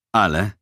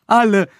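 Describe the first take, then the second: First: "Alle" as a firm, much less shrill question; questioning echo. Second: High, loud, frightened voice; panicky insistence. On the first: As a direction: query the word "Alle" with controlled doubt. Interrogator questions the prisoner's word. („Alle“ streng nachgefragt) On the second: Frightened prisoner accuses all victims. (hoch und panisch beteuernd) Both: A narrator's reading.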